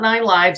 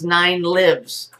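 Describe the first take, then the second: First: 'Lives' is said with the vowel of 'dives'. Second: 'Lives' is said with the vowel of 'gives'. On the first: A cat has nine separate lifetimes. The speaker calls it wrong. "It's not nine lives" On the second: Something is alive and present. The speaker calls it right. "The cat represents power, which lives"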